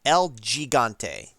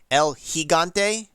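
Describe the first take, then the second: First: Gigante begins with a J sound, as in giant. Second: Gigante begins with an H sound, as in hello. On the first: "I always read it as El Gigante. ... G, for giant" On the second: "Hig, ... Pronounce it like an H"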